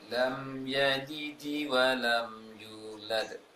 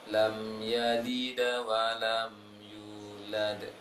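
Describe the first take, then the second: First: The d in yalid ends with an i-like echo. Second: The d in yalid ends with an a-like echo. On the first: "Tadi terbaca yalidi" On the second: "kita arahkan ke fathah semuanya, bunyi kokolahnya fathah yang miring"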